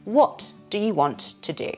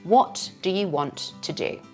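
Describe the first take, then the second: The two takes are said the same way.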